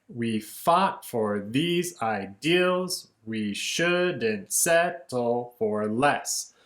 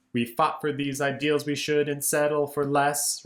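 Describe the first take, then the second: First: Slow, each syllable beat out strong then weak; strong-weak rhythm. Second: Said in the usual way. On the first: Shown as a demonstration. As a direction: tap out the beat word by word, slowly. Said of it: "we have the strong, weak pattern". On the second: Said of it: "the next line is".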